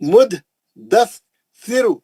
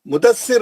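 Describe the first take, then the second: First: The word is split into three separate pieces. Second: The word is run together in one piece. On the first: The speaker calls it right. "तीन टुकड़ों में पढ़ना" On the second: The speaker calls it wrong. "Mudassir हम मिला के उर्दू में बोलते हैं"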